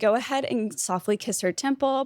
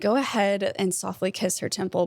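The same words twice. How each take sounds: First: The voice is pitched high and bright. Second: The voice is pitched low and calm. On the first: It is meant to make the couple laugh. "I'm going up in my voice" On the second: It is meant to create a soft, intimate mood. "I bring it back down"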